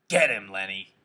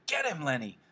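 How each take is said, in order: First: Loud yell through cupped hands. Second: High-pitched urging yell, volume held back. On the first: George hollers to Lenny across the fight, yelling. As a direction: holler it out at normal pitch, loud. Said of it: "cupped his hands around his mouth and yelled". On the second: George urges Lenny to fight back, yelling. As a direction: urge him on with a raised-pitch yell. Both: A narrator's reading.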